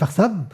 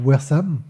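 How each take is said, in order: First: It is said with a German accent. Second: It is said with an English accent.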